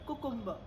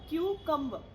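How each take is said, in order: First: The first syllable is koo, without a y. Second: The first syllable is kyoo, with a y. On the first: The speaker calls it wrong. "Some people call this word कुकुम्बर ... गलत बोलते हैं आप" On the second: The speaker calls it right. "आपको बोलना है क्यूकम्बर"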